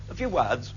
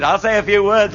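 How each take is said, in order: First: Mimicking the reporter. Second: A few words thrown back louder with a laugh; mocking echo. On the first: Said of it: "repeats the reporter's phrase". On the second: Speaker mocking the reporter's phrase with a laugh. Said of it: "repeats the reporter's phrase back".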